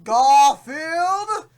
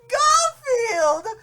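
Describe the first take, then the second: First: It is said in a plain voice. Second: It is said in a squealing, horrified voice.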